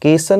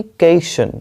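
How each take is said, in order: First: केसन with an S; wrong pronunciation. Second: केशन with a clear SH; correct pronunciation. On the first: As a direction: say केसन as "kay-san", S not SH. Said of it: "केसन नहीं". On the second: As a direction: say केशन as "kay-shun". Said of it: "केसन नहीं, केशन". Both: Shown as a demonstration.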